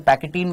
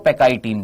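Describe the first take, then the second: First: The middle syllable has a short 'keh' sound. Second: The middle syllable has a 'kai' diphthong sound. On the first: "कई लोग इसको पैकेटीन बोल देते हैं" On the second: "कई लोग इसको पैकाइटीन भी बोल देते हैं"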